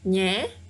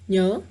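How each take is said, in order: First: The vowel is a spread front 'eh' sound. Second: The vowel is a relaxed central 'uh' sound. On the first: This is the full form as it is written. "your mouth has to stretch. Nhé, it's more work" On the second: This is the casual form used to speak fast and easily. "you just have to slightly open your mouth"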